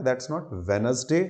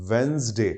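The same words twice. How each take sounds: First: Wednesday said slowly with the d sounded, "Wed-nes-day"; deliberately wrong Wednesday, d voiced; spelling pronunciation. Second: Wednesday as "Wenzday", no d; silent d. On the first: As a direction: sound out every letter of Wednesday. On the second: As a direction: say Wednesday as "Wenz-day". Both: Shown as a demonstration. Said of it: "pronunciation में डी silent जाता है".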